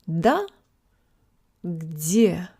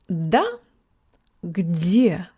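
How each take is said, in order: No difference in how they are said.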